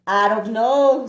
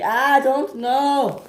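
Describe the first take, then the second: First: Said in the usual way. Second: High, slow odd squeaky take on "I don't know"; playful odd voice; high silly voice. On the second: A narrator's reading. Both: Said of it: "make your voice do that?".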